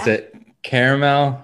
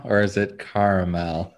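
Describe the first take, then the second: First: "caramel" with first vowel as in "care"; contrasted pronunciation. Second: "caramel" with first vowel as in "car"; contrasted pronunciation. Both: Shown as a demonstration.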